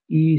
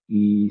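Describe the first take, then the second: First: The syllable is said with a high pitch. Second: The syllable is said with a low pitch. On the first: The speaker calls it right. "make those high marks. So I'm going to go up" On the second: The speaker calls it wrong. "I made a mistake"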